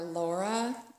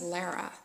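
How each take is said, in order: First: The first vowel sounds like the one in 'law'. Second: The first vowel sounds like the one in 'car'. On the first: The speaker calls it wrong. "I say Laura or Laura" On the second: The speaker calls it right. "her name's Lara"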